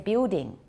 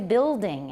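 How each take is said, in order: First: The L becomes an ooh-like vowel sound. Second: The L is pronounced as a dark L. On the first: "It's turning into an ooh, or just simply disappearing" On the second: "They don't say building anymore"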